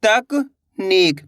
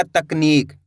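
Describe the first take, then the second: First: तकनीक as तक, long pause, नीक; split in chunks. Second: Said in the usual way. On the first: Shown as a demonstration. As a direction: break तकनीक into two slow pieces. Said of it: "दो-दो करके आपको पढ़ा देता". (तकनीक, तक के बाद रुककर) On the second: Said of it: "तो मिलके बन जाएगा".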